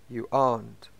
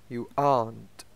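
The two takes are said the same way.

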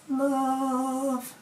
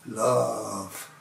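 First: It is said at a high pitch. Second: It is said at a lower pitch.

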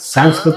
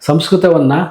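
First: The word ends on a consonant, anglicized style. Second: The word keeps its final vowel, Kannada style.

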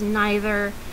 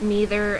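First: It is said with a British pronunciation. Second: It is said with an American pronunciation.

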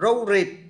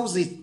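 First: Both consonants are pronounced as r. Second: Both consonants are pronounced as z. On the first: "hoặc là hai chữ R" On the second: "roses hai chữ Z"

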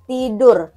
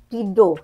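First: The final r is clearly pronounced. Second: The final r is dropped, ending in o. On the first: "Kalau orang Indonesia R-nya itu jelas" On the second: "Si R-nya ini samar kayak British"

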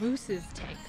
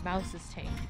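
First: The first word has the vowel of 'moose'. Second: The first word has the vowel of 'mouse'. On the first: The speaker calls it wrong. "I've been pronouncing it as Moose's Tank" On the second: The speaker calls it right. "It's actually Mouse's Tank. Okay, that's better"

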